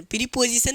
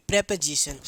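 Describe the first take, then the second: First: प्रीपोजिशन said as "piri-po-ji-shan" with an extra i after the p; wrong pronunciation. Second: प्रीपोजिशन said as "prep-ə-zi-shan" with a short first vowel; correct pronunciation. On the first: Teacher to class, showing the wrong way to say प्रीपोजिशन as "piri-position". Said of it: "प्रीपोजिशन नहीं". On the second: Teacher to class, giving the real way to say प्रीपोजिशन as "prepəzishan". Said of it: "इसको पढ़ा जाता है real तरीके से". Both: Shown as a demonstration.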